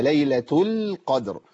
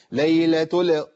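First: Slow "ليلة القدر", l held still; correct still lam. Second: "ليلة ال" with the l bounced loose; wrong lam. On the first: Teacher correcting the mistake, "ليلة القدر" with held lam. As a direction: rest on the l of "القدر" without bouncing it. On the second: Teacher showing the mistake, "ال" with unsteady lam. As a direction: release the lam of "ال" instead of holding it still. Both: Shown as a demonstration. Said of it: "لا ده خطأ".

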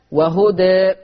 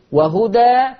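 First: وهدى ending on a leaning e; reduced taqlil. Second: وهدى ending on a wide open a; open fath. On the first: Teacher showing the reduced reading of وهدى. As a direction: tilt the end of وهدى toward e. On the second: Teacher showing the open reading of وهدى. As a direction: end وهدى on a full open a. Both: Shown as a demonstration. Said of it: "فيه الفتح والتقليل".

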